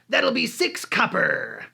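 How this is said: It is said in a put-on character voice. The character is played out directly. "play with your voice or play out some kind of quirk when playing the N P C"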